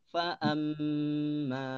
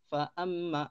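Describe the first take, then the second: First: The nasal m is drawn out very long. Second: The nasal m is cut off very quickly. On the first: "Terlalu panjang" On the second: "itu terlalu pendek ya"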